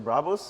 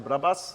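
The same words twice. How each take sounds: First: It is said with a German accent. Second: It is said with a Japanese accent. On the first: "in Germany you say Brabus" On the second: "in Japan they say Brabus"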